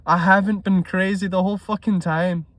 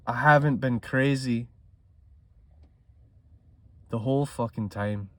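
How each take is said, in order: First: Lifted and louder, vindicated burst after a laugh; imagined triumphant relief. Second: Said in the usual way. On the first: Retold or imitated. Trader imagining finally being profitable, triumphant burst. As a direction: crow it like you were proven right all along. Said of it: "it'll feel so good to be like". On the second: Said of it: "restates the quote plainly".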